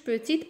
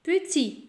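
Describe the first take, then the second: First: A final T sound is pronounced. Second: The final T is silent. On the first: The speaker calls it wrong. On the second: The speaker calls it right.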